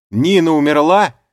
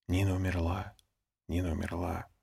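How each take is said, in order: First: Very loud, high, on the verge of tears; thundering shout. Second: Much softer, hushed passing murmur; whispered murmur. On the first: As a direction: boom it out, about to sob. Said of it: "прогремел я снова". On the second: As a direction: let it ripple softly through the group. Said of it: "Тихий шёпот прошёл по группе". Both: A narrator's reading.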